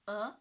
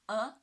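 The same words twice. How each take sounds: First: The pitch rises from mid to high. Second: The same.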